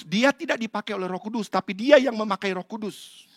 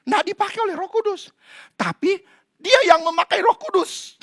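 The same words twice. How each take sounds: First: Said in the usual way. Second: Much higher, pressing repeat of Nggak and dia; emphatic repeat. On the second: Shown as a demonstration. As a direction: drive the point home on the second try. (ulangan dengan tekanan kuat) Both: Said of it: "repeated louder as contrast".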